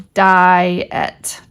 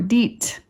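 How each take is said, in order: First: The word is said as two syllables. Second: The word is said as one syllable. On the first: The speaker calls it right. "It's actually two vowels" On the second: The speaker calls it wrong. "Kids might go, ah, I see I E"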